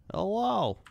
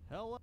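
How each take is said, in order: First: Silly hello. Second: Said in the usual way. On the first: Pretend. Greeting in game voice.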